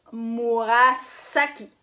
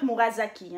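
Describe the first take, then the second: First: Murasaki with a long, hissed S in "saki"; S non voisé. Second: Murasaki with the S voiced as Z, "Murazaki"; mauvaise prononciation en Z. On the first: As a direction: say Murasaki slowly, holding a sharp s sound. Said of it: "vous prononcez S". (Murasaki avec un « s » sifflant, bien appuyé) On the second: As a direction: say Murasaki with a buzzing z before "aki". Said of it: "Not Murasaki, hein? Ça veut absolument rien dire". (Murasaki prononcé « Mourazaki », avec un z) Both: Shown as a demonstration.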